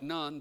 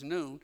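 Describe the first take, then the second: First: The name is read the way English spelling suggests. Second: The name is said with its Hebrew pronunciation. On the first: The speaker calls it wrong. "I know that looks like Nun" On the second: The speaker calls it right. "the Hebrew pronunciation is Nun"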